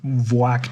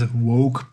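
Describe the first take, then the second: First: The name begins with a V sound. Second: The name begins with a W sound. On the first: It is a playful, teasing form of the name. "I love to say Voak to him. It is more funny" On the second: This is the name's real form. "I know his name is Woke"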